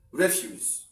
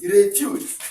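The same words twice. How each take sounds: First: "refuse" as a noun, RE stressed; stress on first syllable. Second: "refuse" as a verb, FUSE loud and rising; stress on second syllable. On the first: Teacher showing students the noun, stress on RE in "refuse". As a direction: lean on RE in "refuse", let FUSE drop. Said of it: "You stress the first syllable". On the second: Teacher showing students the verb, stress on FUSE in "refuse". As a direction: punch FUSE high in "refuse". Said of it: "the refuse as a verb". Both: Shown as a demonstration.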